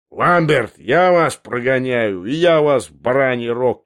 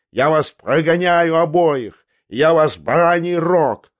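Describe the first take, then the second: First: Raised voice throwing the threat back; shouted echo. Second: High, loud, slow rage; furious yell. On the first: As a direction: shout it back in drawn-out words. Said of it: "крикнул Андреев". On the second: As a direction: bellow the threat, dragging out the words. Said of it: "завопил Ламберт". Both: Acted.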